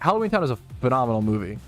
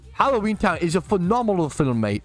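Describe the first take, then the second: First: It is said in his normal American voice. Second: It is said in a put-on British accent.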